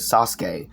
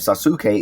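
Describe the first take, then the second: First: The u after the s is dropped. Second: The u after the s is fully pronounced. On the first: The speaker calls it right. "It was Ske" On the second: The speaker calls it wrong. "not um Suke"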